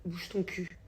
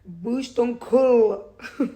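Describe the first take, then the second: First: Mild mock scolding. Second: Drawn out very slowly, high and much louder; child's stretched, loud «Bouge ton cul»; imitating her daughter. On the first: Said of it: "j'ai dit à son frère". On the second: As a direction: copy a little girl with an English accent saying «Bouge ton cul». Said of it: "Ma fille, elle a dit".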